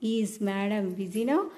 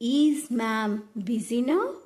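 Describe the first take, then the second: First: The title is said in two syllables. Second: The title is said in one syllable. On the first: The speaker calls it wrong. "మేడం అని అనకుండా" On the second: The speaker calls it right. "మ్యామ్ అని ఉచ్చారణ చేస్తే చాలా బాగుంటుంది"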